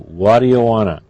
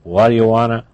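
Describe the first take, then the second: First: 'Want to' is run together into 'wanna'. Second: 'Want to' is run together into 'wanna'.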